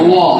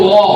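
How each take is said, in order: The two takes are said the same way.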